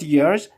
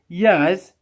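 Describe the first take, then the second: First: It is said with an American pronunciation. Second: It is said with a British pronunciation. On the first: The speaker calls it wrong. "not years" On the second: The speaker calls it right. "and it is years"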